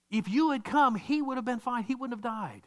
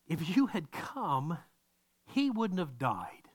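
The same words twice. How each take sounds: First: Higher, pleading reproach; mild accusing plea; Martha's attitude. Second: Slow, heavy reproach; Martha's attitude. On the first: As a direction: push the blame onto him, voice lifted. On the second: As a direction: lay each word down slowly as a charge. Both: Retold or imitated. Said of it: "she's got this attitude".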